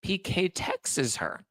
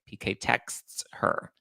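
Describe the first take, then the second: First: "texts" in two syllables, like Texas; high, slow "texts" said as "texes"; Garcelle's pronunciation. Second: "texts" as one syllable; slow, careful one-syllable "texts"; standard pronunciation. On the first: Retold or imitated. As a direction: draw out "texts" slowly as "tex-ses". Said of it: "as Garcelle says it". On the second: Shown as a demonstration. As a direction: say "texts" crisply with the final ts cluster. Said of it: "when you just say".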